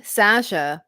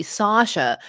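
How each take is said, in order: First: Said in the usual way. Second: Sasha with a long open AH, "SAH-sha"; others' pronunciation. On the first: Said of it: "some people call me Sasha". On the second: Shown as a demonstration. Quoting what some people call her, Sasha as "SAH-sha". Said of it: "they posh it up".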